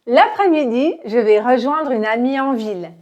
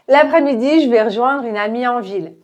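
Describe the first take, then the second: First: It is said at a moderately quick pace. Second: It is said very fast with the vowel dropped. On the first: "Un peu plus rapidement" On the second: "beaucoup plus rapide, on va enlever le E de je vais"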